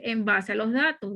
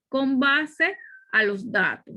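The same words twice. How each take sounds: First: Said in the usual way. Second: Slow, careful con base; stress on con. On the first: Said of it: "No debemos decir". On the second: Shown as a demonstration. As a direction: spell out con base slowly. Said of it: "debemos decir".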